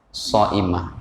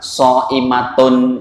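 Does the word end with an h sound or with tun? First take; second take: h; tun. First: The word ends with a soft h sound. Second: The word ends with a full tun ending. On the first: This is the form used when pausing. "kalau dibaca wakaf jadi apa? Shaimah gitu" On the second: This is the full form of the word.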